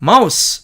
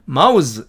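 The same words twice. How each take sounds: First: Mouse 끝을 스로, 마우스; mouse를 명사처럼 s로 끝내기; noun mouse. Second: Mouse 끝을 즈로, 마우즈; mouse를 동사처럼 z로 끝내기; verb mouse. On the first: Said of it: "이렇게". (명사 mouse, 스 발음) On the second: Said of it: "이렇게 발음한다는 얘기입니다". (동사 mouse, 즈 발음) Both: Shown as a demonstration.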